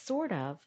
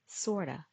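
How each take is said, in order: First: Both words are said fully and separately. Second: The words blend into one reduced word. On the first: "Sort of sounds like" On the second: "sounds like sorta"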